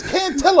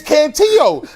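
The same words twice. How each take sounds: First: Cantillo said "can-TILL-oh"; anglicized pronunciation. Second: Cantillo said "can-TEE-yo"; Spanish-style pronunciation. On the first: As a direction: say Cantillo with a hard English L. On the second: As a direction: say Cantillo with the double L as a Y. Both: Acted. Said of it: "who says Cantillo".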